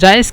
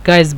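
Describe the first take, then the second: First: The word begins with a soft j sound. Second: The word begins with a hard g sound. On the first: This is the standard form of the word. "জায়েজ কি গায়েজ বলে" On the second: This is how Egyptians say it. "গায়েজ বলে"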